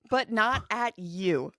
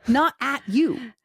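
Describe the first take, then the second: First: "but not at you" slowly, each word weighted; slow emphatic. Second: "Not at you" slow, each word leaned on; emphatic echo. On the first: Reassuring a frustrated mom, slow and deliberate. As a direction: spell it out slowly. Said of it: "Two things can be true". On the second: Echoing the point to a cohost, slow and firm. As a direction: land it firmly. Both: Shown as a demonstration.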